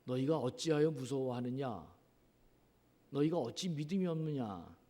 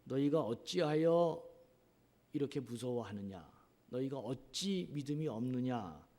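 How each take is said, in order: First: Scolding. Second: Rebuking. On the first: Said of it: "이렇게 야단치시면서 꾸짖고". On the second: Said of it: "이렇게 꾸짖고 있습니다". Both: Retold or imitated.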